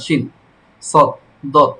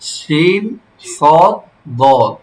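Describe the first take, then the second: First: Each letter name is said quickly with short vowels. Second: Each letter name has its vowel drawn out. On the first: The speaker calls it wrong. "এরকম বলা যাবে না" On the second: The speaker calls it right. "এভাবে প্রতিটা হরফ এক আলিফ, অন্তত এক আলিফ টান হবে"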